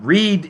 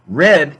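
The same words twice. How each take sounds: First: The vowel is long, rhyming with bead. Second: The vowel is short, rhyming with bed. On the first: It is the present tense form. "read is what you use for the present" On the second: It is the past participle form. "You say read if it's the past participle"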